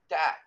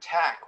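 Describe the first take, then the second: First: The t has no puff of air. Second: The t has a puff of air. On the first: The speaker calls it wrong. "So that's tack without the puff of air" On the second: The speaker calls it right. "One has this kind of big puff of air that comes out with it"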